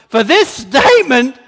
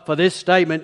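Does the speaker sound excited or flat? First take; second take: excited; flat. First: The voice is lively and delighted. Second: The voice is flat and offhand. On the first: He is thrilled with her and applauds her faith. The speaker calls it right. "It's like" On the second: He grants the request without much feeling. The speaker calls it wrong. "it's not just like, well"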